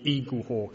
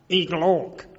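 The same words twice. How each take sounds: First: It is said in the speaker's ordinary accent. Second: It is said in an imitated, disdainful accent.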